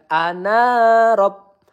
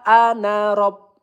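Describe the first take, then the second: First: The vowel in na is long. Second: The vowel in na is short. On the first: The speaker calls it wrong. "bukan ana rob" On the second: The speaker calls it right. "maka nanya kita baca menjadi pendek ya"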